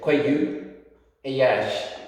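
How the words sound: The slender r sounds like an English y. This is how it is said in parts of Donegal. "their pronunciation of the slender R is very like a E, ... almost like a, an English Y"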